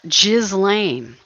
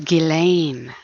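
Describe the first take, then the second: First: The s is pronounced, like 'jizz'. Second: The s is silent, with no 'z' sound. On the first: The speaker calls it wrong. "It's not Ghislaine, like a jizz bucket" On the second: The speaker calls it right. "the S is silent. ... No, it's Ghislaine"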